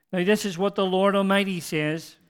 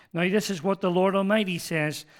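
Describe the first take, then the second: Both takes have the same delivery.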